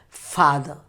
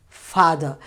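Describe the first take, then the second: The two takes are said the same way.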